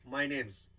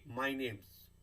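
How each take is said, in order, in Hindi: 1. 'is' छोटा होकर 's' ध्वनि जैसा हो जाता है। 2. 'is' छोटा होकर 's' ध्वनि जैसा हो जाता है।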